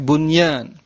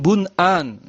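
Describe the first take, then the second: First: A y sound comes before the second syllable. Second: A glottal stop comes before the second syllable. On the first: The speaker calls it right. "tapi bunyan" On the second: The speaker calls it wrong. "bukan bun'an"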